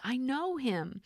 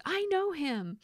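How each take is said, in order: First: High voice leaning hard on know; high Buddy voice, know punched; stress on know. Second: High, thrilled with stress on know; high, delighted I know him; Buddy the Elf. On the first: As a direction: hit the word know like an excited elf. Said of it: "I do wanna emphasize the word no because that's kind of how he says it". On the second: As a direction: gush it like a starstruck elf. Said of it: "And then he says". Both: Retold or imitated.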